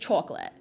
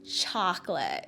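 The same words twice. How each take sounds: First: The word is said in a Brooklyn accent. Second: The word is said in a standard American accent. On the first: "It's chocolate" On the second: "I can't say chocolate"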